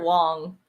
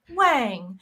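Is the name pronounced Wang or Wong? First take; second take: Wong; Wang. First: The name is said with an 'aw' vowel. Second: The name is said with an 'ah' vowel. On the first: This is how the person's name is really said. The speaker calls it right. "And it is Garrett Wong" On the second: This is how an automatic pronunciation guide reads it. The speaker calls it wrong. "with Google pronunciations, it'll be like Wang"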